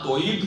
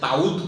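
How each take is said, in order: First: The first syllable has an u vowel. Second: The word ends in a plain, unvoweled d. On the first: "তাই দম্মা দিয়ে দিয়ে" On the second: "দালে যজম দিয়ে"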